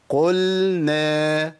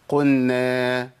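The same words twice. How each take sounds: First: قلنا with a distinct لام then نون, slowly; clear lam. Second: قلنا said as قنّا, the لام swallowed into the نون, slowly; lam merged into nun. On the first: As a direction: sound the لام fully in قلنا. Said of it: "وأرجع بلساني تاني". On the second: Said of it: "بتسمعوها ولا لأ؟". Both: Shown as a demonstration.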